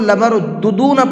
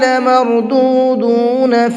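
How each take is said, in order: First: Both 'du' vowels are clipped short. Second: Both 'du' vowels are drawn out long. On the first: The speaker calls it wrong. "अक्सर लोग यहाँ पर गलती ये करते हैं" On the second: The speaker calls it right. "दोनों को खींच करके पढ़ना है"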